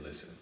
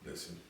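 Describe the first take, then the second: First: Said in the usual way. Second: Very soft, intimate murmur; hushed mock-seductive opener; sexy voice. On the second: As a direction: lower the volume and coax seductively. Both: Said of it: "let me put on my sexy voice".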